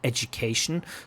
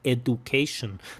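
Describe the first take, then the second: First: The middle consonant is a j sound. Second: The middle consonant is a plain d sound. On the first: "I like the j" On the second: "She doesn't pronounce it like education"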